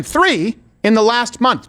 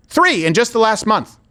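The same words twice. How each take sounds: First: "Three" hit hard, each word slow and spaced; slow emphatic repeat. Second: "Three" stressed, normal pace; emphatic first take. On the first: Host repeating the figure to viewers, slow and emphatic. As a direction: hammer home "Three in the last month" slowly. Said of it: "I'll say it again". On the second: Host stating the figure to viewers, emphatic. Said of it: "say it again". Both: Real, not acted.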